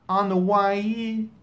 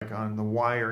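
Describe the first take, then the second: First: Wire is broken into two syllables, why-ye. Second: Wire is said as one smooth syllable. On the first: The speaker calls it wrong. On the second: The speaker calls it right.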